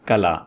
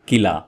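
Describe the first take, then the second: First: The first vowel sounds like 'a'. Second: The first vowel sounds like 'i'. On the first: The speaker calls it right. "इसका सही तलफ़ुज़ है कला" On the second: The speaker calls it wrong. "आमतौर पर बोला जाता है किला. तो ये आ, मेरे ख्याल में गलत है"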